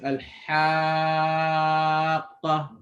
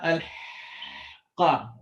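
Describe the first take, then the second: First: The h sound after al is clearly heard. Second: The h sound after al is missing. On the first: The speaker calls it right. "it starts off with air, and then it turns into vibrations" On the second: The speaker calls it wrong. "The surah haqa is not al qa"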